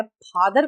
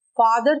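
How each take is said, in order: First: फादर as "phadar", lips popping; wrong Hindi ph. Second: फादर with a breathy f, lips apart; English F. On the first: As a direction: close the lips to start फादर. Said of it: "में फादर कहा". (फादर में हिंदी फ) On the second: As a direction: start फादर on a true f. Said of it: "फादर के बदले में". (फादर में नुक़्ते वाला फ़) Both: Shown as a demonstration.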